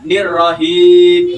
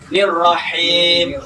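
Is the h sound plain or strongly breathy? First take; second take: plain; strong. First: The h is a plain, easy h. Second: The h is strong and breathy. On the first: The speaker calls it wrong. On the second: The speaker calls it right.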